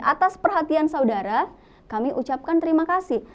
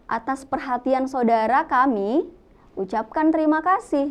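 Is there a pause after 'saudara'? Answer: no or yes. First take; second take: yes; no. First: There is a pause after 'saudara'. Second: There is no pause after 'saudara'. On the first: The speaker calls it right. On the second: The speaker calls it wrong.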